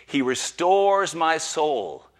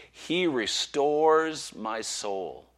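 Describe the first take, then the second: First: Slow, lifted, louder reading; solemn recital. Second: Very slow, gentle reread. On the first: Preacher opening with the psalm, slow and full. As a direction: proclaim it slowly. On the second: Preacher rereading the psalm to rest weary listeners, slow and gentle. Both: Acted.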